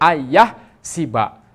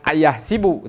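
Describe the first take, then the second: First: The final vowel is an 'a' sound. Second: The final vowel is an 'u' sound. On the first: The speaker calls it right. "tetapi ayah siba" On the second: The speaker calls it wrong. "Jangan ayah sibu"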